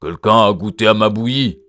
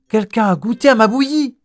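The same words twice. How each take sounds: First: It is said in a big gruff voice. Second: It is said in a medium voice.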